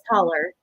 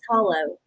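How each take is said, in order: First: The word ends with an 'er' sound. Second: The word ends with an 'oh' sound.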